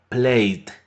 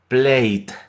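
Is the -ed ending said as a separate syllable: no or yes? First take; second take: no; no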